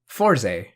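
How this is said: It is said with an English pronunciation. "And in English, it would be closer to Fourze"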